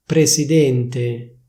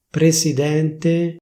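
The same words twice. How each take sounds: First: "Presidente" with a closed E, presidénte, slow; "Presidente" the Milan way, closed E; Milanese closed e. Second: "Presidente" with an open E, presidènte, slow; "Presidente" standard open E; official open e. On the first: Showing viewers Milanese "Presidente", closed E. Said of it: "come viene pronunciata a Milano". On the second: Showing viewers standard "Presidente", open E. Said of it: "prima ti dico la pronuncia ufficiale". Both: Shown as a demonstration.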